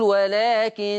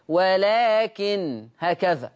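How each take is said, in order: First: ولكن ending in a held nasal ghunna on the doubled nun; Hafs nasal pause. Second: ولكن stopped on a light nun without ghunna, very slow; Warsh light nun. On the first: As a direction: stop on ولكن with ghunna, slowly. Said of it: "نقول". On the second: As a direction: recite ولكن with no doubling, drawn out. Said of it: "فورش يقرأ بتخفيف النون". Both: Shown as a demonstration.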